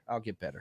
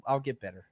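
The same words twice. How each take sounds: First: "I'll get better" repeated much lower and softer, fading out; trailing off quietly. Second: Said in the usual way. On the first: Shown as a demonstration. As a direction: let the repeat die away under your breath.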